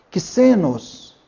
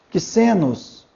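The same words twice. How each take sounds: Both takes have the same delivery.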